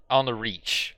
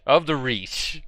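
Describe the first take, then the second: First: Said in the usual way. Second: Of said louder and higher; stress on Of. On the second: Real, not acted. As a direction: punch the corrected word Of.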